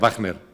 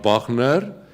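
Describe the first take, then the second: First: The name is pronounced with an English accent. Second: The name is pronounced with a German accent. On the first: The announcer knew more English than German. The speaker calls it wrong. "si ese locutor sabía más inglés que alemán" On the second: The announcer knew more German than English. The speaker calls it right. "si sabía más alemán que inglés"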